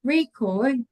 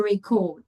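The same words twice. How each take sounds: First: REcord, first syllable stressed; "Record" as a noun, weight up front. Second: ReCORD, last syllable stressed; "record" as a verb, weight at the end; verb stress, second syllable. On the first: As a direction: hit the start of "Record". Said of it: "if you're talking about the noun". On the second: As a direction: hit the CORD of "record". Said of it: "talking about the verb". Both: Shown as a demonstration.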